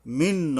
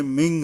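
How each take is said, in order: First: "মিন" ending in a clear n; the mistaken "মিন", no ng; wrong plain N. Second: "মিং" ending in a nasal ng; the corrected "মিং", nasal ending; correct ikhfa. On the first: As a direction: say "মিন" with the tongue closing on n. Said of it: "মিন নয়". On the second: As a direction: say "মিং" with a hidden n, like ng. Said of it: "মিং হবে". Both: Shown as a demonstration.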